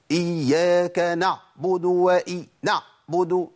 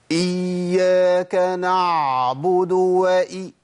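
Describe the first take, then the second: First: Slow recitation of "نعبد" with the ع squeezed shut; "إياك نعبد" with a hard, stopped ع; over-tense ع. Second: Slow recitation of "نعبد" with the ع running on too long; over-prolonged ع. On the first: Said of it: "الشدة في العين". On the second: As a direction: let the sound flow through the ع in "إياك نعبد". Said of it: "بتمشي الصوت زيادة شوية". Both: Retold or imitated.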